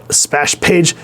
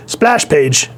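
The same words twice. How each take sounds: First: "splash" slipped as "spash", losing its L; slip of the tongue. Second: Said in the usual way. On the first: Real, not acted. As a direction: stumble on "splash", leaving out the L.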